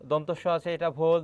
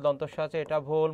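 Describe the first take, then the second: No difference in how they are said.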